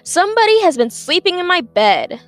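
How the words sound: It is said in a big, deep voice.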